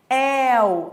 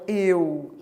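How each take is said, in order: First: The diphthong is said with an open vowel. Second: The diphthong is said with a closed vowel. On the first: "esse timbre aberto" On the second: "e não eu"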